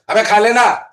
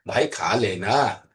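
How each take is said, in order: First: It is said harshly and angrily. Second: It is said in a pleading, coaxing way.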